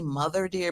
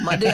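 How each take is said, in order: First: Mother is said fully with both syllables. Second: Mother is clipped to one syllable, mud. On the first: The speaker calls it right. "It's really mother deer" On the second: The speaker calls it wrong. "we drop so it's mud deer"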